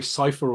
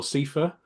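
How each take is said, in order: First: Cypher said SIGH-fer; sigh-fer variant. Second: Cipher said SEE-fer; see-fer variant. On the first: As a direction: rhyme the start of Cypher with "eye". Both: Shown as a demonstration. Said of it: "people say Cypher or Cipher".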